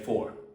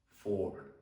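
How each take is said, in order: First: It is said quickly and casually. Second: It is said slowly and calmly.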